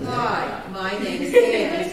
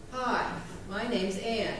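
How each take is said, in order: First: Much higher, louder, slow; dramatic contrasting demo of the name; different tune. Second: Slow, plain self-introduction; habitual name pattern. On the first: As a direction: lift the whole phrase way up and stretch it. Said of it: "It's a totally different". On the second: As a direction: say it the usual way, slowly. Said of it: "did you notice that the pattern is to do this". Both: Shown as a demonstration.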